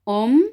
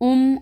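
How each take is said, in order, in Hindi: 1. स्वर 'o' जैसा लगता है। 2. स्वर 'u' जैसा लगता है। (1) "बल्कि ओ है" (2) "उम उन नहीं कर देना"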